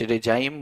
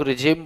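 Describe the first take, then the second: First: रिजाइम with a long ai, ri-jaim; रिजाइम pronounced ri-jaim; said as rijaim. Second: रिजिम with a short i, ri-jim; रिजिम pronounced ri-jim; said as rijim. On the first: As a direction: say रिजाइम as ri-jaim, like "regime" with an English diphthong. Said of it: "कुछ रिजाइम बोलते हैं इसको". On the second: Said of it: "कुछ लोग रिजिम बोलते हैं इसे". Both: Shown as a demonstration.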